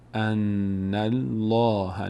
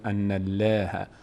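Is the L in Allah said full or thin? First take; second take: full; thin. First: The L in Allah is full and heavy. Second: The L in Allah is thin and light. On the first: The speaker calls it right. "الان اینجا میشه ان ان الله" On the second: The speaker calls it wrong. "نمیگیم"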